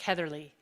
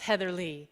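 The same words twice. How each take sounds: First: The name is said very fast. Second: The name is said slowly.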